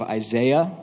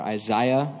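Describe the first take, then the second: First: The name is said with an American pronunciation. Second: The name is said with a British pronunciation.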